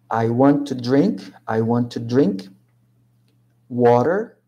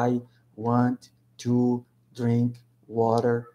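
First: The words run together in one linked flow. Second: Each word is said separately, one by one. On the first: The speaker calls it right. "A gente fala conectando" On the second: The speaker calls it wrong. "a gente não pronuncia palavra por palavra, né? A gente não fala I want to drink water"

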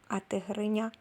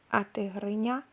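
The two takes are said the same way.

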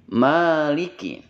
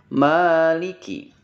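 No difference in how they are said.

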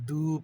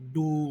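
First: The d is light, made with the tongue tip. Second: The d is heavy, made further back. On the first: The speaker calls it wrong. "দাল জিব্বার আগা থেকে আসে ... দু পড়লে হবে না" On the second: The speaker calls it right. "ডদ জিব্বার গোড়া থেকে আসছে। আমাদেরকে কিন্তু এটা ডদ ডু পড়তে হবে"

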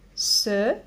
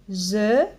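First: The syllable begins with a hissing s sound. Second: The syllable begins with a buzzing z sound. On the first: The speaker calls it right. "Je dis se" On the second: The speaker calls it wrong. "Je ne dis pas ze"

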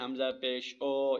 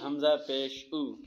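First: The final vowel is stretched long and o-like. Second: The final vowel is short and a clear u. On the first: The speaker calls it wrong. "इतना लंबा करना है कि मजहूल बन जाए... ये गलत है" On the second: The speaker calls it right. "तो इसको हम नॉर्मल पढ़ेंगे"

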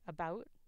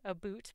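First: The word is said with a raised 'ou' vowel, not 'oo'. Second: The word is said with an 'oo' vowel, like 'a boot'. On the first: This is how many Canadians actually say it. The speaker calls it right. "It's about. That is the way that a lot of Canadians would pronounce it" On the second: This is the stereotyped idea of how Canadians say it. The speaker calls it wrong. "it's not a boot, by the way"

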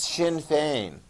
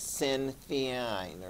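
First: The name is said with the Irish pronunciation. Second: The name is read as its English spelling suggests. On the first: The speaker calls it right. "you need to pronounce it the way they do in Ireland. It's pronounced Sinn Féin" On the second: The speaker calls it wrong. "It looks like Sinn Féin or something like that"

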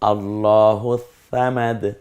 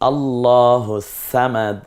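First: Samad starts with a soft th sound. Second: Samad starts with a plain light s sound. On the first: "সা দিয়ে বলেছি" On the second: "সিন দিয়ে বলেছি"

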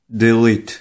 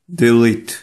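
Both takes have the same delivery.

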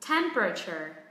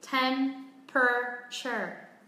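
First: The first syllable is stressed, the rest quick and lower. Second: All syllables are said evenly, without stress.

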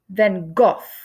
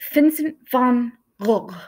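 First: The name is pronounced the English way. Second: The name is pronounced the Dutch way, throaty. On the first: This is how people in England said it. The speaker calls it wrong. "in England, people called him" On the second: This is how the artist said his own name. The speaker calls it right. "the correct way to say his name"

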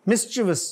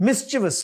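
The two takes are said the same way.

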